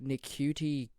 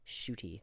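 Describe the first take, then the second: First: The name begins with an n sound. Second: The name begins with an sh sound. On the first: The speaker calls it wrong. "I've been pronouncing that shit wrong my whole life. I'm like" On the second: The speaker calls it right. "Nah, fam"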